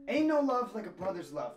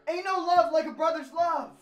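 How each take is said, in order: First: It is said quietly and reluctantly. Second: It is said loudly and forcefully.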